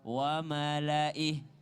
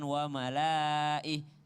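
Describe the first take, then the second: First: The vowel after the L is kept short. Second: The vowel after the L is drawn out long. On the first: The speaker calls it right. "Jadi lamnya tidak panjang" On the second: The speaker calls it wrong. "seakan-akan lamnya panjang di situ"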